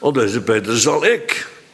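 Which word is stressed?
ik. The stress falls on the word ik. The speaker himself will do it. "de Heer zelf zou het doen"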